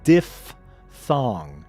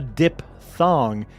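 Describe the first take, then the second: First: The first syllable is said as diff. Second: The first syllable is said as dip. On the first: The speaker calls it right. "It's diphthong" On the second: The speaker calls it wrong. "it's not a dip thong"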